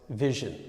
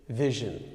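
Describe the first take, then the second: The two takes are said the same way.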